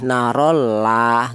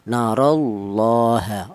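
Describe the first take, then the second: First: The L in Allah sounds thin and light. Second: The L in Allah sounds heavy and full. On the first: The speaker calls it wrong. "nggak boleh karo la itu tarkik tipis" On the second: The speaker calls it right. "dibaca tebal atau dibaca tafkhim"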